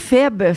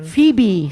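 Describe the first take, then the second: First: The name is said with French pronunciation. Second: The name is said with English pronunciation. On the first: "en français" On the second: "c'est en anglais"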